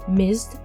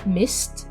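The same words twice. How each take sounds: First: It ends in a d sound after z. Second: It ends in a t sound after s. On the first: The speaker calls it wrong. "j'ai naturellement changé ce en the" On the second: The speaker calls it right. "c'est naturel"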